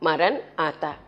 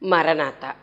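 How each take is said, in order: First: There is a short pause between the two parts. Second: The two parts run together without a pause.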